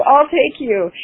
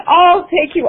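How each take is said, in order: First: Eager repeat. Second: High, eager "I'll take you"; eager volunteering. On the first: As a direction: still high "I'll take you", settling a bit. Eagerly volunteering for the ride. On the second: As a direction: jump at the chance, pitch way up. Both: Retold or imitated.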